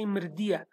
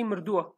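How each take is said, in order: First: "mirdia" with an "-ia" ending; Hawleri form. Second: "mirdua" with a "-ua" ending; Slemani form. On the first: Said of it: "in Hawleri accent they say mirdia". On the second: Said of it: "in Slemani we say mirdua". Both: Shown as a demonstration.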